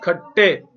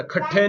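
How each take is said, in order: First: खट्टे with a clean, doubled ṭ and no puff of air; the right way, a crisp double ṭ in खट्टे; correct unaspirated ṭ. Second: खट्टे said with a breathy ṭh, like khaṭṭhe; the wrong way, with a puff of air after the ṭ in खट्टे; wrong aspirated ṭh. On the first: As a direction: model the correct खट्टे, plain ṭ with no aspiration. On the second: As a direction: show the mistake, aspirated ṭh in खट्टे. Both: Shown as a demonstration. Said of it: "ठे नहीं कहना".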